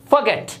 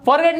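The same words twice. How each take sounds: First: फॉरगेट as "fuh-GET", no R; weak first syllable in फॉरगेट; correct pronunciation. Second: फॉरगेट with full "FOR", R sounded; wrong pronunciation. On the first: Teacher repeats for learners, फॉरगेट said "fuh-get". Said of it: "ये होता है". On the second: Teacher shows learners the mistake, फॉरगेट with a full "for". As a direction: say "for-get" for फॉरगेट. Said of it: "फॉरगेट नहीं होता भाई". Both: Shown as a demonstration.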